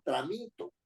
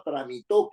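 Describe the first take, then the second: First: "Tramito" stressed on -mi-, not on the final -to; accent dropped from the end, "Tramito" as tra-MI-to; stress on middle syllable. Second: "tramitó" with the stress on the final -tó; stress on final syllable. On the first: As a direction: say "Tramito" with the weight on MI. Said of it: "me olvido de ponerle el, el acento". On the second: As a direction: say "tramitó" as an aguda, hitting the last syllable. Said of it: "que es aguda terminada en vocal". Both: Shown as a demonstration.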